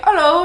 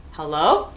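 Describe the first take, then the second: First: Lightly imitated Australian hello, higher and louder; Australian accent. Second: Said in the usual way. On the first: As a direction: toss out a quick mock Australian greeting. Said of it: "talking in an Australian accent". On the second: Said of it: "and I'm like".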